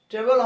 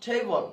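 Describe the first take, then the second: First: ট্রেবল with a short e, "tebel"; mispronounced "table". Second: ট্রেবল with a glide, "tei-bol"; correct "table". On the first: Teacher showing the wrong reading of table, mispronounced "tebel". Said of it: "ট্রেবল হবে না". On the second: Teacher showing the right reading of table, glided "tei-bol". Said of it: "উচ্চারণ হবে". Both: Shown as a demonstration.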